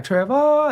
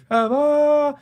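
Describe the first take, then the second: First: High sing-song summons, end held long; musical mom calling. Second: High sung-out copy of mom's call; mimicking echo. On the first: Retold or imitated. Mom calls out to her son, high musical holler. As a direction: imitate a mom calling musically from across the house. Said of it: "she'd be like". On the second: Son mocks his mom's call back to her, high musical echo. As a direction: echo the call teasingly, holding the last syllable. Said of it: "It was an echo".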